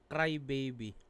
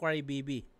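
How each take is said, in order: First: Put-on "Baby" said the English way, BAY-bee; BABY reading. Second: Put-on "Baby" said as BEE-bee; BIBI reading. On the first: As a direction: read "Cry Baby" slowly, with BAY-bee. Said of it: "ano yung pagkakasabi nito ng Bibi". ("Baby" binigkas na BEY-bi) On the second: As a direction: read "Cry Baby" with Baby as BEE-bee. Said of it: "ako, ang basa ko". ("Baby" binigkas na BI-bi) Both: Shown as a demonstration.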